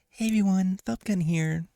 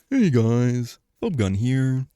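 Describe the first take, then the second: First: It is said in a light, natural voice. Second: It is said in a deep, manly voice.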